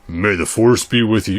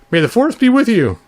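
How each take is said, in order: First: It is said in the normal speaking voice. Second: It is said in a put-on higher voice.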